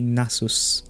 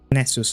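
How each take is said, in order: First: The name has the speaker's native-language pronunciation. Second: The name has an English pronunciation. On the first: "Like in my own language, I would just say Nasus" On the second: "But in English, I'm pretty sure it's Nasus or Nessus"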